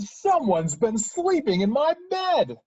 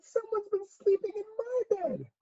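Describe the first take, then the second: First: It is said in a big, deep voice. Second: It is said in a tiny, small voice.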